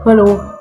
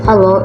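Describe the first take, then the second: First: It is said in a big, heavy voice. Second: It is said in a natural, ordinary voice. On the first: "Contoh suara besar adalah seperti ini" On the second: "Suara natural itu seperti ini"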